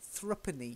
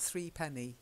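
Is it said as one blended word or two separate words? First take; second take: blended word; separate words. First: It is said as one reduced, blended word. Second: It is said as two separate, full words. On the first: The speaker calls it right. "We actually say threepenny" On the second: The speaker calls it wrong. "not three penny"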